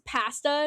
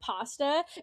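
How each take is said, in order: First: The word has a Canadian-style pronunciation. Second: The word has a non-Canadian pronunciation. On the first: "he says pasta" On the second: "instead of"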